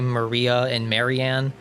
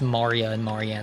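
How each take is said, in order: First: The names are said with English-style pronunciation. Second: The names are said with Japanese-style pronunciation. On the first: The speaker calls it wrong. "I don't think they would say Maria and Marianne, even though these are kind of like American-ish names" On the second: The speaker calls it right. "they're actually going to be pronouncing it as"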